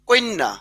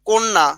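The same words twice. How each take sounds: First: An extra 'i' vowel comes before the cluster. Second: It has no extra vowel before the cluster.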